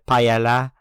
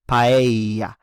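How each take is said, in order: First: The double L sounds like an English L. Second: The double L sounds like an English Y. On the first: The speaker calls it wrong. "a lot of English speakers say paella, but that's incorrect" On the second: The speaker calls it right. "you want to always say paella"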